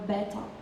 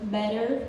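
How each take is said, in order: First: It is said with a crisp British T. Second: It is said with an American T and R. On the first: "they say leta or beta with T sound" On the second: "we say letter or better"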